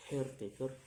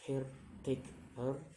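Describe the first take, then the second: First: Said in the usual way. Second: "caretaker" slowly in three beats, rising at the end; syllable by syllable. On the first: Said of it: "the ending er". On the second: Shown as a demonstration. Teacher demonstrating syllables, "caretaker" slow and split. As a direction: break "caretaker" apart, pausing between syllables. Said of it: "three syllables to say".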